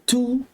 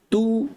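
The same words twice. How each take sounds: First: The t is released with a strong puff of air. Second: The t is released with little air. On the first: The speaker calls it wrong. "jangan sebut tu, jangan angin banyakkan dia" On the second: The speaker calls it right.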